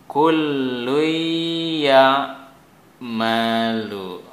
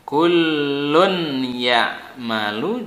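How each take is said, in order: First: The n sound merges into the y. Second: The n sound is clearly pronounced.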